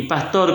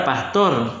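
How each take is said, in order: First: PASTOR con el acento en la O. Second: PASTOR con el acento en la A. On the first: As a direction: di "pastor" acentuando la última sílaba, TOR. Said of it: "con el acento en la O". (pastor, con acento en la O) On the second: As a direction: di "pastor" acentuando la primera sílaba, PAS. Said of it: "con el acento en la A". (pastor, con acento en la A) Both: Shown as a demonstration.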